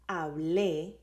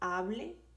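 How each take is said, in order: First: The stress is on the last syllable. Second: The stress is on the first syllable. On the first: It reports speaking in the past. "I talked, I spoke" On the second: It is a request to speak. "like speak, talk to me"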